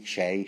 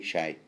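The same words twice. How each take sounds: First: Shay rhyming with "day"; trying a pronunciation. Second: Shay rhyming with "eye"; alternative pronunciation. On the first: Podcaster testing a name's sound, Shay as in "day". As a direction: say Shay with an "ay" vowel. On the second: Podcaster testing a name's sound, Shay said like "shy". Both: Shown as a demonstration. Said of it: "Is that how it's pronounced?".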